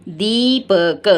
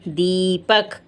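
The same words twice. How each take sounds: First: Slow, drawn-out Deepak; slow answer word; stretched demo. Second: Said in the usual way. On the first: Shown as a demonstration. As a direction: draw Deepak out for the class. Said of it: "ये क्या है".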